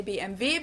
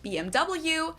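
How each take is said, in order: First: "B M W" as beh-em-veh; German pronunciation. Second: "B M W" as bee-em-double-you; English pronunciation. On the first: Explaining to viewers how Germans say "B M W", veh at the end. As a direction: say "B M W" with German letter names, veh last. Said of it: "In German, we say". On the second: Explaining to viewers how English speakers say "B M W", double-you at the end. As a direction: say "B M W" with English letter names, double-you last. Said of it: "In English, people say". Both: Shown as a demonstration.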